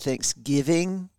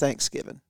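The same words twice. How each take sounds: First: It is said in a general, non-Southern way. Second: It is said in a Southern way. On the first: The speaker calls it wrong. "We don't say Thanksgiving" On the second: The speaker calls it right. "It's Thanksgiving. In the South"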